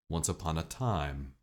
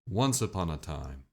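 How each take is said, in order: First: The emphasis falls on the last word. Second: The emphasis falls on the first word. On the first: "the end of the sentence" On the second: "the emphasis at the beginning"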